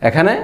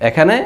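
No difference in how they are said.

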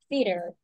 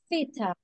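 First: It is said in an American accent. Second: It is said in a British accent. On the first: "In American English" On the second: "And this one is like theater. ... it's like very picky"

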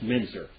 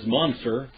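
First: The first vowel sounds like 'eh'. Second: The first vowel sounds like 'uh'. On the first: The speaker calls it right. "but it should be pronounced Menzer" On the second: The speaker calls it wrong. "His name is Munzer"

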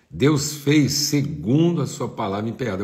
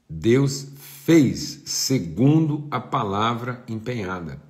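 First: It is said at a normal speed. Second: It is said very slowly.

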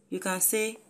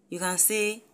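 Both takes have the same delivery.

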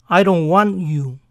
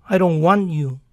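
Both takes have the same delivery.

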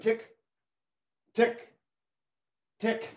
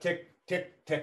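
First: The ticks are said slowly with long gaps. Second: The ticks are said quickly with short gaps. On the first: The moving clock runs slow. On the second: The clock runs at normal speed.

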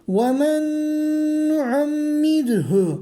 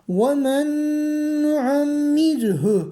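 Both takes have the same delivery.

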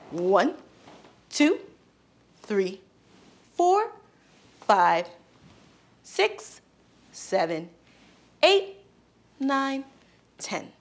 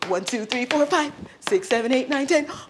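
First: The numbers are counted slowly. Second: The numbers are counted very fast.

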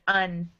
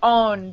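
First: The vowel is a short 'u' as in 'up'. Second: The vowel is an open 'o' as in 'on'. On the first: The speaker calls it right. "but it's un, like this" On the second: The speaker calls it wrong. "it looks like on"

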